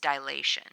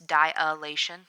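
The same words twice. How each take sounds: First: No extra vowel follows the first syllable. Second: An extra vowel follows the first syllable. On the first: The speaker calls it right. "It's dilation" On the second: The speaker calls it wrong. "a lot of people will pronounce this dilation. There's no A after the I"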